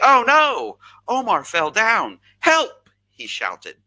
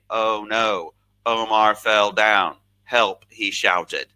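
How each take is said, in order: First: It is read expressively, following the punctuation. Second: It is read flatly, ignoring the punctuation.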